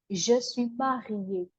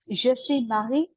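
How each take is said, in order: First: "je suis mariée" slow, with "suis" as sɥi and "mariée" ending on a clear é; slow correction. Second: Said in the usual way. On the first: Shown as a demonstration. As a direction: correct the learner slowly and carefully.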